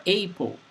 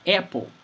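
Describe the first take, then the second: First: Apple with an E vowel, like EP-ul; the other way to say it. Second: Apple with a flat open A, like AP-ul; one way to say it. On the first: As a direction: say apple as EP-ul, the A closer to bet. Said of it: "and it's correct". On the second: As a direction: say apple with the short A of cat. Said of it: "in Brazil, people say". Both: Shown as a demonstration.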